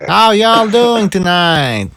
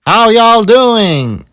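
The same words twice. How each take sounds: First: Slow, higher put-on Southern "How y'all doing tonight?"; stretching it out in a fake Southern accent; mock Southern accent. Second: Slow, high put-on Southern drawl "How y'all doing?"; Hillary doing a fake Southern greeting; mock Southern accent. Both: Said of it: "she changed her accent".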